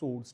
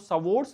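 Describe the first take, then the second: First: No w sound is heard after the s. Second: A w sound is heard after the s. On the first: The speaker calls it right. "सोर्स होता है बस" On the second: The speaker calls it wrong. "डब्लू silent होता है बेटा, डब्लू बोला नहीं जाता है, तो सवोर्स नहीं होता है"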